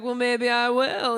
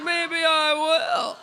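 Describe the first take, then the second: First: Slow, teasing maybe; slow, playful hesitation; drawn-out maybe. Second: Very slow, louder teasing maybe; very slow, hammed-up coyness; very drawn-out maybe. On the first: Retold or imitated. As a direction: stretch it out coyly, half-committing. Coy reply to the matchmaking friend. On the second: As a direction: drag every word out, playing hard to get. Coy reply, escalating back and forth.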